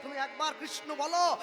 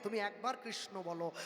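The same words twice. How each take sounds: First: Pleading shout. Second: Softer and lower "তুমি একবার কৃষ্ণ বলো"; hushed, humble plea; soft pleading. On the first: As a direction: call it out, begging. God falling at their feet. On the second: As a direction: plead gently and low. God begging at the door. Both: Retold or imitated.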